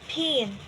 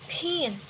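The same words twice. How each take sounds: First: The p is said with a puff of air. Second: The same.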